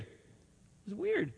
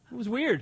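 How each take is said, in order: First: "weird" said much softer and slowly, drawn out; quiet slow repeat. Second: Said in the usual way. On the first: Shown as a demonstration. Preacher repeating It was weird to the congregation, hushed and slow. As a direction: let It was weird fade to a slow hush.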